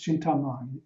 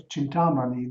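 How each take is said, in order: First: Said in the usual way. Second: Chintamani with the Sanskrit accent; careful Sanskrit-style stressing of Chintamani; Sanskrit accentuation. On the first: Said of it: "the accent from the". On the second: Shown as a demonstration. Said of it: "the accent from the Sanskrit".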